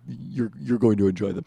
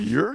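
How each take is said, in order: First: The voice sounds glum and unhappy about it. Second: The voice sounds pleased and happy about it. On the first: The speaker does not like the results. The speaker calls it wrong. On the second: The speaker likes the results too. The speaker calls it right.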